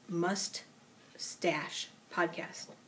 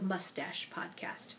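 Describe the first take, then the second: First: The two words are said slowly and apart. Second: The two words run together quickly.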